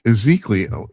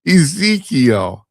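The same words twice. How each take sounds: First: "Ezekiel" garbled with an extra "lee-oh" ending; stumbled pronunciation. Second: "Ezekiel" drawn out slowly and higher, "ee-ZEEK-ee-ul"; careful corrected pronunciation. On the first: Host struggling with a Bible name, "Ezekiel" mispronounced as "ih-ZEEK-lee-oh". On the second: Host finally getting the Bible name, "Ezekiel" said slowly and correctly. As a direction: land "Ezekiel" triumphantly, stretched and pitched up. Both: Real, not acted. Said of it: "I can say it".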